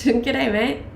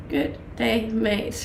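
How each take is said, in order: First: Playful laughing go at an Aussie "Good day, mate"; Australian accent. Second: Said in the usual way. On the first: Shown as a demonstration.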